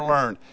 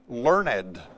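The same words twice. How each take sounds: First: The word is said the ordinary way. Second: The word is said with shifted syllable emphasis. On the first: Having acquired knowledge by study. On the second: Being an educated, scholarly person.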